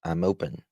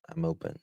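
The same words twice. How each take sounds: First: Said in the usual way. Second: "I'm open" said much higher and softer; high repeat. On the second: Shown as a demonstration.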